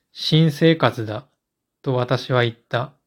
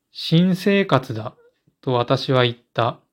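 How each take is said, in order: The two takes are said the same way.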